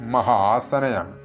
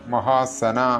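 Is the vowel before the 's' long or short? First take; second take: long; short. First: The vowel before the 's' is long. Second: The vowel before the 's' is short. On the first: The speaker calls it right. "അതങ്ങനെയല്ല" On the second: The speaker calls it wrong. "ഇത് മിക്ക ആളുകളും തെറ്റിച്ച് ചൊല്ലാറുള്ള ഒരു നാമമന്ത്രമാണ്"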